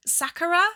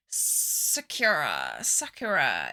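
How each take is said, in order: First: Sakura? tried as SA-ku-ra with an open a, rising like a question; tentative other pronunciation. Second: Sakura said as suh-KYOOR-uh, low, slow and falling; her British way. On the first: To viewers who corrected her, trying SA-ku-ra with a questioning rise. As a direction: test the unsure SA-ku-ra, pitched up and asking. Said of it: "I'm gonna say it how I say it". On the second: To viewers, owning her British suh-KYOOR-uh slowly and low. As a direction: settle firmly on suh-KYOOR-uh, her Midlands way. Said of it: "I'm British Midlands with a, a little bit of Scouse".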